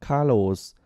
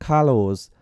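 The two takes are said the same way.

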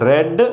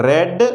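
The two takes are said the same way.

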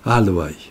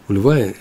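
First: The word is said in its modern Hebrew form. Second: The word is said in its older Aramaic form. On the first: "в современном иврите принято это арамейское слово произносить в другой форме" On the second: "это арамейское слово"

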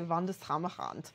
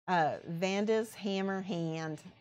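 First: The name is said in a German accent. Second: The name is said in a Midwestern accent. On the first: "I want to say it with a German accent" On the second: "If you were saying it Midwest accent"

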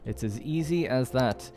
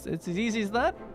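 First: The voice falls at the end, like a statement. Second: The voice rises high at the end, like a question. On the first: The task really is simple. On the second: The speaker doubts the task is that simple.

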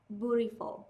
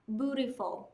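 First: It is said with an American accent. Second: The same.

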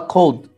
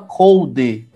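First: The word ends sharply on the D sound. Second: The word ends with an added vowel sound. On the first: The speaker calls it right. "Você para e para no D" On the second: The speaker calls it wrong. "você não fala code"

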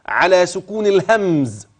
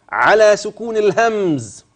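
The two takes are said the same way.

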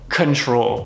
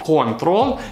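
First: The stress is on the second syllable. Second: The stress is on the first syllable. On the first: The speaker calls it right. "мы здесь ставим опять ударение на второй слог" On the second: The speaker calls it wrong. "в русском так произносится ударение на первый отец"

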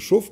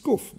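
First: The word begins with a sh sound. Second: The word begins with a k sound. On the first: This is the standard French form. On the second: This is the northern regional form.

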